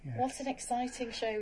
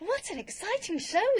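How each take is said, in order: First: It is said flatly, with little energy. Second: It is said with lively, excited energy. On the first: The speaker calls it wrong. "That didn't sound very exciting" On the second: The speaker calls it right. "That's brilliant. Yes, better"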